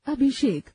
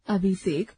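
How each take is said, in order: First: अभिषेक with a clear sh sound; correct pronunciation. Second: अभिषेक said as "अबिसेक", with plain b and s; wrong pronunciation. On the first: Teacher models the correct अभिषेक with a distinct sh. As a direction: say अभिषेक with sh at the end. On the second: Teacher demonstrates the wrong form "अबिसेक". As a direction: soften अभिषेक, b for bh and s for sh. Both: Shown as a demonstration. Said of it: "स्वर संबंधी अशुद्धियां".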